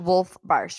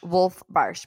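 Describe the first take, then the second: First: The surname is said as 'Barsh'. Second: The same.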